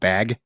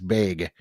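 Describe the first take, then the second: First: The vowel has a standard sound. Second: The vowel has a Midwestern sound. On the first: "instead of bag" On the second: "another big Midwest thing is bag"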